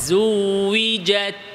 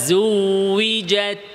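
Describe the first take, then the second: The two takes are said the same way.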